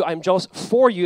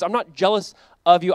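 First: "for" stressed as the correction. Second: Contrastive weight on "of"; stress on OF. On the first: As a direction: land firmly on "for", against "of". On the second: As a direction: set up "of" as the wrong word, leaning on it. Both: Retold or imitated.

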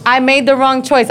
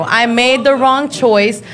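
First: Said in the usual way. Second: "I made the wrong choice" said slowly with each word weighed; slow it right down and own it; deliberate, emphatic repeat; slow, deliberate admission. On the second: Shown as a demonstration.

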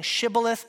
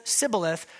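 First: SHIBBOLETH starting with a clear sh; sh pronunciation. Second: SIBBOLETH starting with a plain s, no sh; dialect pronunciation. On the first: Showing a tiny dialect difference, shibboleth with an sh. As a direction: say shibboleth with SH at the front. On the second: Showing a tiny dialect difference, sibboleth with an s. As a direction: say sibboleth with S in place of SH. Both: Shown as a demonstration.

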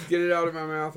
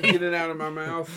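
First: Choked-up, talking through something; struggling to speak past it; mouth full. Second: Talking through a mouthful; words round a bite of food; mouth full. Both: Real, not acted. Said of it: "I can't talk".

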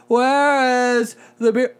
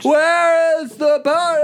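First: Slow, high, slurred drunk imitation. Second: Put-on very high, slow, laughing drunk squeal. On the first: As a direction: ham up a drunk asking for beer. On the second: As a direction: overblown drunk imitation, laughing through it. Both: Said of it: "you sound like a drunk person".

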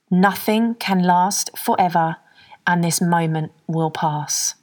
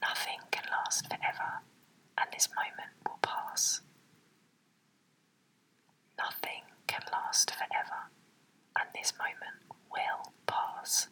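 First: Slow calm affirmation. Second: Whispered under the breath. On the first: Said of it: "Number two". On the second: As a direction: whisper it to yourself. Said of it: "Say that to yourself". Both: Shown as a demonstration.

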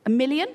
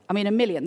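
First: Million lifted in a rising question, "A million?"; questioning rise. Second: Said in the usual way. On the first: Shown as a demonstration. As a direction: ask "million" with a rising, doubtful tune.

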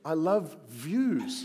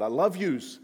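First: Slow, drawn-out correction "views" with a long v; patiently correcting the misheard "views"; I love views. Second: Put-on New York Long Island accent. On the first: Retold or imitated. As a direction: stretch the v in "views" slowly. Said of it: "He was like, "No". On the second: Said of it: "It sounded a little bit like New York, Long Island".

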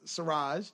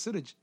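First: Suraj with an American r, soft zh ending. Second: Suraj said the Hindi way, tapped r, soft d-j; north indian accent. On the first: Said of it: "if we're going to the American people". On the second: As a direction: Suraj with Hindi pronunciation, soo-RUDJ. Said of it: "if we're going to the Hindi people". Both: Shown as a demonstration.

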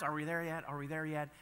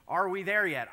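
First: Said in the usual way. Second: Put-on whiny kid asking again and again; pestering child. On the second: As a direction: nag like a bored child in the back seat. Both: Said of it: "as a child I used these words".

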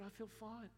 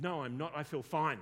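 First: Softer, higher, understated reply; calm retold answer. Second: Loud, emphatic retort; mock loud protest. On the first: Client answers how he feels now, soft and untroubled. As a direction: answer softly and simply, imitating the client. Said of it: "How do you feel now?". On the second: Client contradicts counsellor about being fearful, loud mock protest. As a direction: imitate a man insisting loudly. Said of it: "Just, okay, tone it down".

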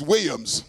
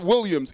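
First: "Williams" slurred to "Way-ums"; church-style pronunciation. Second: "Williams" with the L fully sounded; standard pronunciation. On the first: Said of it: "it's Williams". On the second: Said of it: "it's not Williams". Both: Shown as a demonstration.

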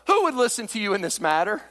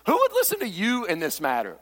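First: "who" punched, the rest of "Who would listen to you in this matter?" lighter; stress on who. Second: "would" stressed, "who" left light. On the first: Preacher reading David's words to the worthless fellows, stress on who. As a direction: hit the word "who". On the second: Preacher showing where the emphasis belongs, stress on would. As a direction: lean on "would" in the question. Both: Shown as a demonstration. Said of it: "I think the emphasis is".

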